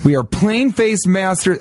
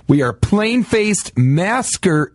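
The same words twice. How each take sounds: First: "masters" said right, with a clear t, fixing the slip; careful "masters" after the fumble; corrected word. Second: "masker" said where "masters" was meant, the slip; wrong word. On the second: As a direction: trips into "masker" instead of "masters". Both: Real, not acted. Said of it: "ma-, damn it".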